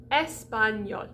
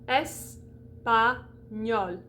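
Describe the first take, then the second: First: Said in the usual way. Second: Espagnol broken into "es", "pa", "gnol"; very slow, separated syllables in Espagnol. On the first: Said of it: "it's gonna be an open E". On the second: Shown as a demonstration. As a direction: pause between each syllable of Espagnol. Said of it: "because that's one syllable".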